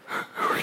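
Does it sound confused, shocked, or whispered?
whispered. It is said in a soft whisper.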